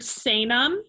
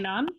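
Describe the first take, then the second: First: The word begins with an S sound. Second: The word begins with a K sound. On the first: The speaker calls it wrong. "So I heard Sanum" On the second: The speaker calls it right. "the C's are always K"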